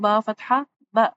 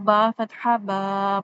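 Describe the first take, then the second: First: The final vowel is cut off abruptly. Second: The final vowel is stretched out long. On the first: An extra sukoon is added to the sound. "इतनी जल्दी पढ़ना है कि झटका महसूस हो" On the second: An extra alif is added to the sound. "ये मद हो जाएगी, ये गलत हो जाएगा"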